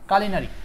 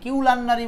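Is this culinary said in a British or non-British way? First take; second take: British; non-British. First: It is said in a British way. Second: It is said in a non-British way. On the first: "কারণ এটা হচ্ছে আপনার British উচ্চারণ" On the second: "আবার এটাকে কিউ লান্নারি কিউলান্নারি বলা যায়"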